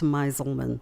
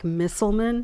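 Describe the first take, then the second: First: The first syllable sounds like 'my'. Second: The first syllable sounds like 'miss'. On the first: This is how the name is actually said. The speaker calls it right. "but it's Meiselman" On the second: This is how the spelling looks. The speaker calls it wrong. "it looks like Misselman"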